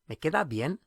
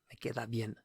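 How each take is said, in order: First: It is said with a question tone. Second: It is said with a statement tone.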